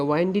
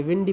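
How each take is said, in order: First: वाइंडी with a long "eye" vowel; the mistaken "WINE-dee" sound in वाइंडी; wrong pronunciation. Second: विंडी with a short "i" as in "win"; short first vowel in विंडी, no "eye" glide; correct pronunciation. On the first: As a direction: say वाइंडी so the first syllable rhymes with "wine". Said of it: "वाइंडी नहीं पढ़ेंगे". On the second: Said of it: "विंडी पढ़ेंगे". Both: Shown as a demonstration.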